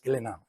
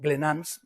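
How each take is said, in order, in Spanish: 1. La S final es muda. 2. La S final se pronuncia. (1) "la S no se pronuncia, es Glenanne" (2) "si digo Glenans me va a decir que la S no se pronuncia"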